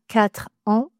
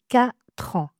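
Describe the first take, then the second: First: A break or extra sound separates quatre from ans. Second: Quatre runs straight into ans without a break. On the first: The speaker calls it wrong. "Pas 4 ans" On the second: The speaker calls it right. "mais 4 ans"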